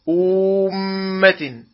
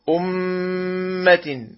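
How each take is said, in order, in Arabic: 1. الحركة التي قبل الحرف المشدد مُطَوَّلة. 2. الحركة التي قبل الحرف المشدد قصيرة.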